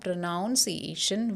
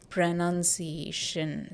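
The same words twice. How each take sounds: First: The second syllable sounds like "noun". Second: The second syllable sounds like "nun". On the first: The speaker calls it wrong. "It is not noun, because some people say pronunciation. It is not pronunciation" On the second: The speaker calls it right. "It is pronunciation. See, none is the sound which comes here"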